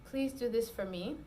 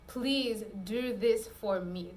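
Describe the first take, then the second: First: It is said warmly, as to a partner. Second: It is said with frustration, as to a boss.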